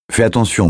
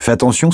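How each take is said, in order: First: Fais stressed, falling tune, higher voice; warning. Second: Attention rising at the end, higher voice; careful warning. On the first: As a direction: hit Fais, then drop. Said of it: "la mit en garde April". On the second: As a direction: stress on attention with a lift. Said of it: "Elle posa la tasse". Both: A narrator's reading.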